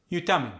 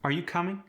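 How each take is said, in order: First: "coming" falls at the end; Khmer-style question, "coming" going down; no rising tone. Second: American question tune, "coming" going up; rising question. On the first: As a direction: drop the pitch on "coming" despite the question. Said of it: "No rising tone". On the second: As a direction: pitch rises at the end of "coming". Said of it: "rising pitch at the end". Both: Shown as a demonstration.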